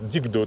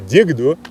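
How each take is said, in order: First: The middle consonant is a plain, light k. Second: The middle consonant is a strong, marked k. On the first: It means good. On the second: It means axe.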